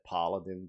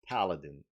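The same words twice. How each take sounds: First: The word is said with a French accent. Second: The word is said with an English accent. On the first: The speaker calls it wrong. "I always said paladin ... this is my French accent" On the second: The speaker calls it right. "but this is paladin"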